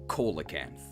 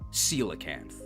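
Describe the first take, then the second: First: The first syllable sounds like coal. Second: The first syllable sounds like seal. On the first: The speaker calls it wrong. "because coal is a rock" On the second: The speaker calls it right. "The scientifically accurate way to pronounce this is"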